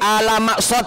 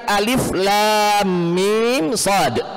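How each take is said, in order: First: The letters are run together with short a vowels. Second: Each letter is said by its full name. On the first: The speaker calls it wrong. "Misalnya kita fathahkan semua alama, misalnya tidak jadi" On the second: The speaker calls it right. "Setiap huruf diberikan makharijul hurufnya yang pas. Alif disebut alif"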